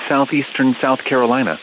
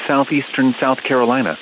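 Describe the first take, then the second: No difference in how they are said.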